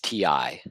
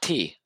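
First: Both letters are spoken, tee and eye. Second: Only one letter is spoken, tee. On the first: The speaker calls it right. "it is TI" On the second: The speaker calls it wrong. "It's not T"

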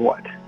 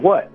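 First: It sounds like a quick, flat statement. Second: It sounds like a normal questioning reply.

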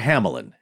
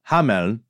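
First: The name is pronounced the English way. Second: The name is pronounced the German way. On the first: "Hamelin is the English variation" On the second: "that's the pronunciation in German"

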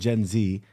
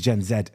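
First: The letter Z is pronounced 'zee'. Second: The letter Z is pronounced 'zed'. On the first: It follows the American way of saying it. The speaker calls it wrong. "we already conform to how Americans pronounce it" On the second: It follows the local British way of saying it. The speaker calls it right. "It should be Gen Z"

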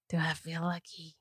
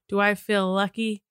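First: It is said in a raspy voice. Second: It is said in a plain voice.

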